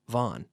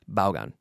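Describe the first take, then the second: First: The name is pronounced in an English way, like 'von'. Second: The name is pronounced in a Spanish way. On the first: It is said for English listeners. "that's how we pronounce it in English" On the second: It is said for Spanish listeners. "when I talk to a Spanish person, I say I work for Vaughan Radio"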